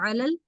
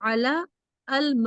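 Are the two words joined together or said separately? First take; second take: joined; separate. First: The two words are run together as one. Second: The two words are said as separate words. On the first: "मिलाकर पढ़ेंगे तो" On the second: "अलग अलग पढ़ेंगे तो"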